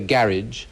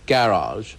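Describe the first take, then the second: First: It is said the local Somerset way. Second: It is said the London or Oxford way. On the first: This is how people said it at his country school. "when I was at school, I think we used to say garage" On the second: This is how people said it in London or Oxford. "other people were saying garage. So I switched to garage"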